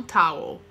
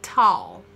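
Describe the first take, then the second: First: Towel said as TOW-oh, a second vowel added; towel in two syllables; wrong pronunciation. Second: Towel said as one short TAU-l; towel with a single vowel; correct pronunciation. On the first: Teacher shows students the mistake to avoid, towel with an extra vowel. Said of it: "Não towel". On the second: Teacher models the right form for students, towel as one syllable. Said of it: "Essa é a pronúncia". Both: Shown as a demonstration.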